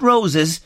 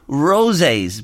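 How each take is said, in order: First: It sounds like the flower name, roses. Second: It sounds like the wine name, rosés. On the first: It refers to the flowers. The speaker calls it wrong. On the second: It refers to the pink wines. The speaker calls it right.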